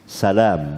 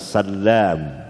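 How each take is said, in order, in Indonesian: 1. Bunyi L itu pendek dan tunggal. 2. Bunyi L itu ditahan panjang dan ganda. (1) "takhfif bukan tasydid"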